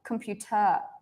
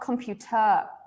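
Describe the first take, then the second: First: The stress falls on the last syllable. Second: The stress falls on the last syllable.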